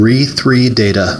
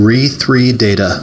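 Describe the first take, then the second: Both takes have the same delivery.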